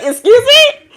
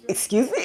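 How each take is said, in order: First: High, louder, laughing "Excuse me?"; laughing, indignant "Excuse me?" at getting up before sunrise; loud mock outrage. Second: Hushed, disbelieving "Excuse me?" with a soft laugh; a quiet, amused "Excuse me?" at an early-morning demand; quiet mock excuse me. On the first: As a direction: throw out "Excuse me?" in playful disbelief. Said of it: "It's like". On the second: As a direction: mutter "Excuse me?" half under your breath, amused. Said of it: "And it's like".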